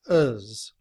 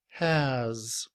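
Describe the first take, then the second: First: It has no h and a weak vowel. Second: It begins with an h and a full vowel. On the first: "We do not pronounce the letter H" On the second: "with the letter H"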